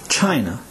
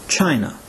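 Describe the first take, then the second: Both takes have the same delivery.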